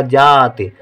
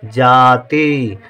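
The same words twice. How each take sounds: First: जाति with a long "jaa" and brief, clipped-off final i; जाति ending in a barely sounded short i; short final vowel. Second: जाति with a long, drawn-out "ee" ending; slowly dictated जाति with long final ī; long final vowel. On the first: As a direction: cut the ending of जाति short, almost "jaat". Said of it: "छोटी की मात्रा लिख देंगे तो हो जाएगा". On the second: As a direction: stretch both syllables of जाति, ending on "tee". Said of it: "ता में बड़ी की मात्रा". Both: Shown as a demonstration.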